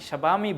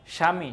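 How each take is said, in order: First: A b sound follows the first consonant. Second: No b sound follows the first consonant. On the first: The speaker calls it wrong. "স্বাবামি বলি না" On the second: The speaker calls it right. "বফলার উচ্চারণ হয় না"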